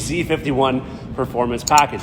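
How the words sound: The letter Z is said the American way.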